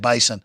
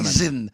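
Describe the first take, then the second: First: The middle consonant is an S sound. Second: The middle consonant is a Z sound. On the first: The speaker calls it wrong. "they get mad at you if you say Bison" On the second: The speaker calls it right. "Say say it like that"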